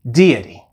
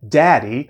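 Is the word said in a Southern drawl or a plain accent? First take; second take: Southern drawl; plain. First: It is said in a Memphis Southern drawl. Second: It is said in a plain, non-Southern accent.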